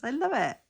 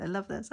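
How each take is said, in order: First: "love" higher and louder, delighted; excited. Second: Said in the usual way. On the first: Real, not acted. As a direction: gush the word "love" with delight. Repeats delighted phrase louder.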